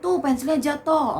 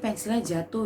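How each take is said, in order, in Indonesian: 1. Diucapkan dengan kasar dan keras. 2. Diucapkan dengan lembut dan ramah. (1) "jangan jangan begini nih" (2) "kalian tolong pelan-pelan"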